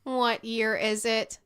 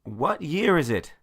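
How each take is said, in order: First: Slow, even robot voice. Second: High, loud panicked Jumanji line; Robin Williams impression. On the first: Acted. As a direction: speak it like a calm machine. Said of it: "said the man who was a robot". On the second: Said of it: "my best Robin Williams Jumanji meme impression".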